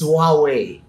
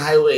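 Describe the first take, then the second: First: The first syllable sounds like 'wah'. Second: The first syllable sounds like 'high'. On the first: The speaker calls it right. "It's Huawei" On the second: The speaker calls it wrong. "I used to pronounce it highway"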